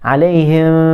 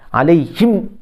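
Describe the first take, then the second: First: The final m is released loosely and open. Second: The final m is pressed hard and clipped. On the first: "Kalau rakhawah, kita lepas dah" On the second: "syiddah ni maksud tekan"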